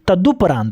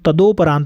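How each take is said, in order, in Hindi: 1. दूसरे अक्षर में u स्वर है। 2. दूसरे अक्षर में o स्वर है। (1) "तदुपरांत होता है" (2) "तदोपरांत नहीं"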